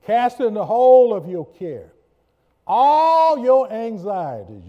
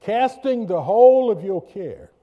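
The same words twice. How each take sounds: First: Preached scripture. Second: High, loud preaching read; preached scripture. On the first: Pastor reading Amplified verse, loud and high. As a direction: call the verse out to the room. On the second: Pastor reading the verse to church, loud and high. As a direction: proclaim the verse. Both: Acted.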